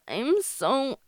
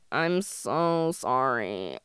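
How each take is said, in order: First: It is said in a plain voice. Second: It is said with creaky vocal fry.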